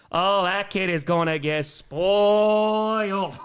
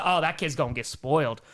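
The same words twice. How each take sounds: First: Slow, drawn out with a laugh; slow amused repeat breaking into laughter. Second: Said in the usual way. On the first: Shown as a demonstration. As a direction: stretch it out slowly, chuckling. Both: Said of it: "repeats it drawn out".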